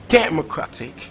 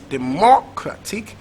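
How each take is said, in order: First: The stress is on the first syllable. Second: The stress is on the second syllable. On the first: "So is it first syllable?" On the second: "Is it second syllable"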